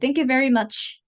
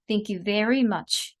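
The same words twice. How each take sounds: First: It is said dryly, with no extra emphasis. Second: It is said with strong stress on 'very'. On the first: The speaker calls it wrong. "건조하게" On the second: The speaker calls it right. "여기에 강세를 주시면 훨씬 더 잘 들릴 수 있겠죠"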